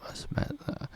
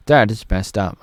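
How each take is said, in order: First: Breathy whisper to self. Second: Said in the usual way. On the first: Shown as a demonstration. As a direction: whisper it under your breath.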